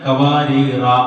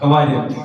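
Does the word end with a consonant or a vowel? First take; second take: vowel; consonant. First: The word ends with a vowel after r. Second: The word ends on a bare r sound. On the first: The final letter is pronounced. "അലിഫിന് അവിടെ ഉച്ചാരണം ഉണ്ട്" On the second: The final letter is treated as silent. "ആ അലിഫ് അവിടെ ഇല്ലായിരുന്നെങ്കിൽ എങ്ങനെ ഓതും?"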